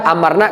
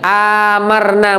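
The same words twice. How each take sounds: First: The first vowel is said short. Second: The first vowel is drawn out long. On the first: We commanded them to obey. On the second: We made them numerous.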